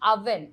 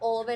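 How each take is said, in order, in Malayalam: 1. ഈ വാക്ക് 'uh' സ്വരത്തിലാണ് തുടങ്ങുന്നത്. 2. ഈ വാക്ക് 'oh' സ്വരത്തിലാണ് തുടങ്ങുന്നത്. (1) "ദിസ് ഇസ് അവൻ" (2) "ഓവൻ അല്ല"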